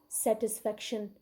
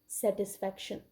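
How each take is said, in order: The two takes are said the same way.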